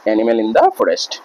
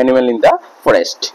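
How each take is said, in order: First: Each word of animal in the forest said very slowly and spaced out; slow dictation. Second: Said in the usual way. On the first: Shown as a demonstration. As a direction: dictate it slowly so students can write it down.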